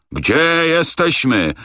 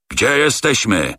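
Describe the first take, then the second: First: Much higher, very slow furious repeat; purple-faced rage. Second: Slow, higher, strangled angry demand; choking with rage. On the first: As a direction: stretch out the demand, bursting. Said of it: "powtórzył z posiniałą twarzą". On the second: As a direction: force it out through fury. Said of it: "dusząc się z wściekłości". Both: A narrator's reading.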